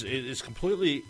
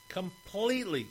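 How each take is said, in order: First: Said in the usual way. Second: Completely pushed much higher on each repeat; high, insistent "completely"; emphatic repeat. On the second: Real, not acted. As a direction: climb up on "completely". Repeating the word, rising each time.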